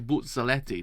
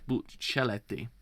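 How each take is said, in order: First: The middle consonant has a slight Z sound. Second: The middle consonant has no Z sound. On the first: "you had to pronounce it like with a slight Z" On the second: "then I hear you say it's Buccellati"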